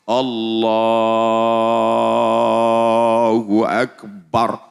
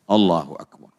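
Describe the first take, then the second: First: The phrase is drawn out long. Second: The phrase is said short and quick.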